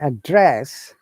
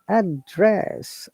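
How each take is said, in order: First: The stress is on the second syllable. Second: The stress is on the first syllable. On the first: "if you're stressing on the second one" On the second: "we're stressing on first word"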